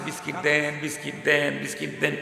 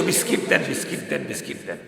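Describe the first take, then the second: First: Softer, mock-tearful child's plea; crying child. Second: Soft, breathy fading whimper; whimpering child. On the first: A beaten child cries to his mother for biscuits, softly tearful. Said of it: "কাঁদতেছে". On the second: Retold or imitated. The crying child's plea fades before he calls mother, whimpering. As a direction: let the plea die away into a whimper. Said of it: "সন্তানের কান্নার শব্দ এখন change".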